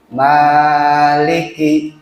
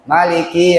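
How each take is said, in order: First: The first vowel is held long. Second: The first vowel is said short. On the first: "Kalau ada alifnya berarti dua harokat" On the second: "bacanya pendek ya"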